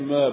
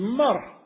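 First: The R sound is dropped. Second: The R sound is strongly rolled. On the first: "I don't pronounce my R's" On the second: "she's a good Scots lady... they put at least 2 to 3 extra R's"

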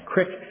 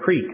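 First: The vowel is a short 'ih' sound. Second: The vowel is a long 'ee' sound. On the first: "that's the way you say it. C-R-E-E-K is crick" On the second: "If you say creek, that gets in the back of your neck"

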